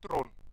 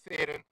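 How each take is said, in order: First: The name is said the South African way. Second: The name is said the American way. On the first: The speaker calls it right. "in South Africa we, um, when we refer to Charlize she's Tron" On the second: The speaker calls it wrong. "not Theron"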